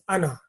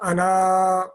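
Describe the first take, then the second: First: The final vowel is short. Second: The final vowel is drawn out long. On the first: The speaker calls it right. "so it is ana" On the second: The speaker calls it wrong. "not ana"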